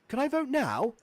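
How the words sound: It sounds impatient and eager.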